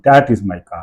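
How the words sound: The stress falls on the word that. "मैं दैट पे जोर लग रहा है"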